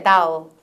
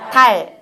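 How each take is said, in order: First: 달 said as 'thou', low, tongue drawn back; English dark L. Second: 달 with a firm final L, louder; Korean pronunciation. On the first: Teacher showing the English way, 'thou' with dark L. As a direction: let the L of 달 slide into a w. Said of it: "제가 해볼게요". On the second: Teacher contrasting for trainees, Korean 달 with clear L. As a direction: hold the tongue at the front on 달. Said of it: "선생님들이 한국어 바-, 달 발음해 보세요". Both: Shown as a demonstration.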